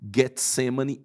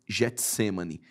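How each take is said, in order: First: The G is said hard, as in 'go'. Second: The G is said soft, like a 'j'. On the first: The speaker calls it right. "esse G no grego tem som de G, como por exemplo seria Getsemane" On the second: The speaker calls it wrong. "e não Getsemane"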